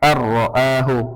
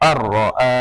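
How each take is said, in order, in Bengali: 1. বাক্যটি পূর্ণ স্বরে শেষ হয়। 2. বাক্যটি স্বর ছাড়া, কাটা অবস্থায় শেষ হয়। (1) "এভাবে বলতে পারবো না" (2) "এখানে গোল চিহ্ন আছে"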